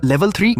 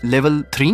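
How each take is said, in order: First: High-pitched disbelieving question; shocked, pitch leaping up at the end; astonished father. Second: Understated stunned question; stunned mother. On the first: Father learning of his son's sudden level jump, astonished. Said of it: "उनकी आंखें फैल गईं". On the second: Mother reading her son's sudden new level, stunned. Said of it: "वो स्तब्ध रह गई". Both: A narrator's reading.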